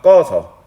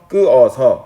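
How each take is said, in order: First: The word is shortened to two syllables. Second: The word is said with three separate syllables. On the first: "꺼서 이렇게 줄여서 발음하는 걸" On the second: "끄어서 라고 발음하는 것보다"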